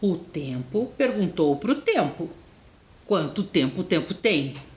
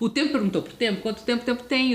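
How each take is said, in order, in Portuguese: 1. Ela é falada em ritmo normal, sem pressa. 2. Ela é falada rapidamente, em ritmo apressado.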